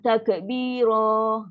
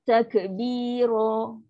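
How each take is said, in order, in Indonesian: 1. Vokal akhirnya dipanjangkan. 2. Kata itu berakhir pada vokal pendek yang terbuka. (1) "Jangan takbiro. Ha, tarik panjang" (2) "bunyi dia takbiro"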